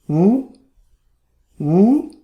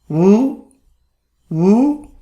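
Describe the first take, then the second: Both takes have the same delivery.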